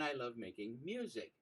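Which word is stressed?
music. The word "music" carries the stress.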